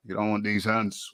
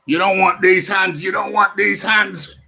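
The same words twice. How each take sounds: First: Said in the usual way. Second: Higher, louder boxing taunt; hyped trash talk. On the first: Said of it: "repeats line quietly". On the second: Pretend. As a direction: shout it like a boxer squaring up. Hyping up the fight.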